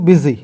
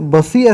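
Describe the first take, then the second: First: The first vowel sounds like the vowel in bit. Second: The first vowel sounds like the vowel in bus. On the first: The speaker calls it right. "इसका sound आई से आता है, ई से आता है" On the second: The speaker calls it wrong. "इसको बसी ऐसा नहीं पढ़ेंगे"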